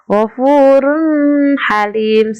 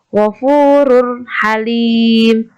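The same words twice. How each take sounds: First: The n sound is blurred into the next word. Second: The n sound is pronounced clearly and distinctly. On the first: The speaker calls it wrong. "bukan ghafurun halim, salah" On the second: The speaker calls it right. "Yang benar adalah ghafurun halim ... tanwinnya jelas"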